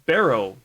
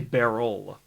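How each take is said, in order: First: The word ends with an O sound. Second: The word ends with an L sound. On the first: The speaker calls it right. "But barrow, that's the way to go" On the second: The speaker calls it wrong. "how I pronounce it, I say barrel"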